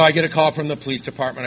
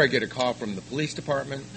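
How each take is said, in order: First: Repeated louder and higher for punch. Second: Says it through a chuckle; half-laughing at the memory. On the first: Retelling the story to the room, louder. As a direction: hit it harder for emphasis. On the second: Telling the audience with a laugh. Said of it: "So I get a call from the police department". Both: Real, not acted.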